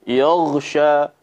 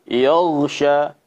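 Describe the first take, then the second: The two takes are said the same way.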